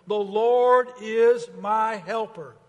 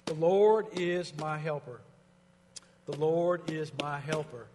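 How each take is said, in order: First: Slow, loud and higher; proclaimed declaration. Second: Quiet personal affirmation. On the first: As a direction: declare it to the room. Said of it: "Let's say it together". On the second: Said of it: "preaching to myself". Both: Shown as a demonstration.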